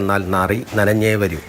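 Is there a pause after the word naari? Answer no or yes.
yes. There is a pause after the second word. The stinking one will come back wet.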